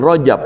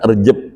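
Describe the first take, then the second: First: The first syllable is said with an o vowel. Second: The first syllable is said with an e vowel. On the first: This is the original Arabic form. "Asli Rojab pakai pakai ro" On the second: This is the softened local form. "Sampai ke kita Rejeb"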